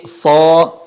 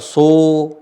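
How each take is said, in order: First: So slowly, heavy with the tongue back raised; thick so. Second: So with a light, plain O, the wrong way; wrong thin so. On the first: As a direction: say so full and heavy, not a plain O. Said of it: "Tapi so". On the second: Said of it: "Bukan dibaca so". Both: Shown as a demonstration.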